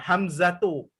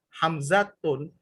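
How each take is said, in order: First: The name ends on a vowel without n. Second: The name ends with an added n sound. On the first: The speaker calls it right. "Hamzatu itu termasuk al-ismul lazi la yansorib" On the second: The speaker calls it wrong. "Kalau dalam bentuk tanda uh, domahtain"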